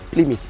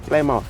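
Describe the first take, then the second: First: Plymouth is said in a British accent. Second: Plymouth is said in a local Botswana accent. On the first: This is how the British say it. "but the British say Plymouth" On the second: This is how people here say it. "Here we say Plymouth"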